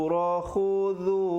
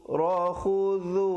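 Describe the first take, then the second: No difference in how they are said.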